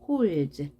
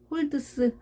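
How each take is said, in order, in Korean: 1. 마지막 d와 s는 합쳐서 하나의 z 소리가 됩니다. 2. 마지막 d와 s는 따로 발음합니다. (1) "ds가 합쳐져서 z" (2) "holds 하지 않고"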